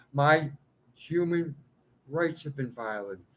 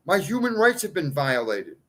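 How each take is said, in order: First: "My", "human", "rights" each set apart by pauses, softer; spaced out. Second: Said in the usual way. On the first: Shown as a demonstration. Repeating his complaint slowly, word by word with pauses. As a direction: lay it out one word at a time. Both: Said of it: "repeats word by word".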